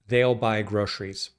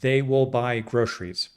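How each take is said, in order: First: 'They will' is contracted into one syllable. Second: Both words 'they will' are said in full.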